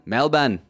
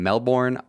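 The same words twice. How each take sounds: First: It is said in an attempted Australian accent. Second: It is said in a plain American accent.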